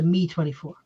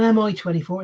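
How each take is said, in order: First: The name is said as a single word. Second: The name is spelled out letter by letter. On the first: The speaker calls it right. "It's a Me twenty-four" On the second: The speaker calls it wrong. "They're not an M I twenty-four"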